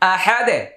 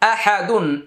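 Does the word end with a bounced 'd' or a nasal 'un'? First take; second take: bounced d; nasal un. First: The word stops on a bounced, echoing 'd'. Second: The word ends with a full nasal 'dun' syllable. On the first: "এখানে আমরা ওয়াকফ করব, দালে জজম দিব, কলকলা করব" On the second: "দাল দুই পেশ দুন"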